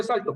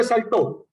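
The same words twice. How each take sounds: First: "salto" as SAL-to; "salto" with the force up front; stress on first syllable. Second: "saltó" as sal-TÓ, punched on the end; "saltó" with a forceful final ó; stress on final O. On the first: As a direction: stress the a of "salto", final o left weak. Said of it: "si no le pongo la tilde". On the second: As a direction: hit the last syllable of "saltó". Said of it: "si le pongo la tilde". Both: Shown as a demonstration.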